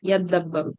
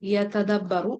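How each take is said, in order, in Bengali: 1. 't' ধ্বনিটি মিশে গিয়ে দ্বিত্ব 'd' ধ্বনিতে পরিণত হয়। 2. 't' ধ্বনিটি আলাদাভাবে উচ্চারিত হয়।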